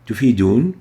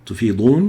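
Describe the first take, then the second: First: Tufidun with a light plain d; Tufidun, d kept in the front of the mouth; plain dal. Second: Tufidun with a heavy emphatic d; emphatic dad. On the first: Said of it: "making benefit". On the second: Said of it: "moving together". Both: Shown as a demonstration.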